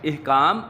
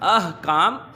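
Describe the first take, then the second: First: The word begins with an 'i' vowel. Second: The word begins with an 'a' vowel. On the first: The speaker calls it wrong. "इहकाम गलत है" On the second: The speaker calls it right. "अहकाम दुरुस्त है"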